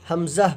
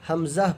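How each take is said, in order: No difference in how they are said.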